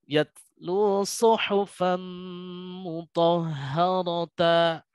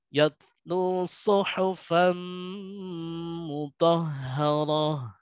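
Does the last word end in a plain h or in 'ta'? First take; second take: ta; h. First: The last word ends with a 'ta' syllable. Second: The last word ends with a short h sound. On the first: The speaker calls it wrong. "bukan yatlu suhufan mutahharata. Nah, salah ya" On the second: The speaker calls it right. "ya gitu. Jadi hak hak biasa, tidak dipanjangkan"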